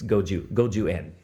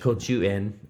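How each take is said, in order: First: Both consonants are voiced, g and j. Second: Both consonants are voiceless, k and ch. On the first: The speaker is a native Japanese speaker. The speaker calls it right. "That's the correct" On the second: The speaker is not a native Japanese speaker. The speaker calls it wrong. "If somebody had said like"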